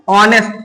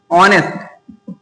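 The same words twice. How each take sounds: First: Said in the usual way. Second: ऑनेस्ट drawn out slowly, silent h, starting on the vowel ऑ; slow clear pronunciation. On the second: Shown as a demonstration. Teacher models how ऑनेस्ट is pronounced for students, slow and clear. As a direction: stretch ऑनेस्ट out so each sound is heard. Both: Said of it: "pronunciation करने पे क्या आ रहा है".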